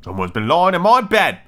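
It is said in a gruff, rough voice.

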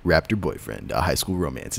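It is said in a put-on movie-trailer voice.

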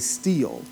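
The vowel is a long 'ee' sound. "we would say steel"

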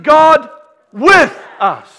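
The stress falls on the word 'with'. God is right here with us. "Where is He?"

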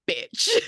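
It is said in a harsh, aggressive way.

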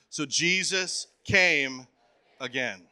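It is said with strong, believing conviction.

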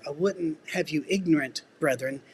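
There is a pause before brethren.

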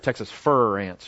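The word fire is flattened in a Texan drawl.

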